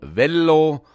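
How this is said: The L sound is held long. This is how it is said in the Fricktal. "Das hat beides bei unserer Aussprache etwa 2 L"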